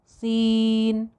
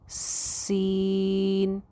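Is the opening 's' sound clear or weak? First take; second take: weak; clear. First: The opening s is faint; the vowel dominates. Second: The opening s is clear; the vowel stays soft. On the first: The speaker calls it wrong. "वो स तो सुनाई ही नहीं दे रहा, वो या और नून ही सुनाई दे रहे हैं।" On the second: The speaker calls it right. "तो ऐसे नहीं"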